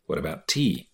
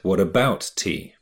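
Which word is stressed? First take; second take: tea; about. First: The stress falls on the word tea. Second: The stress falls on the word about. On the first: It asks about tea itself. "То есть интонация на tea, ударение" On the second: It asks why tea matters at all. "То есть ударение на about"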